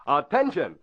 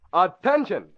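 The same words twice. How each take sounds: The two takes are said the same way.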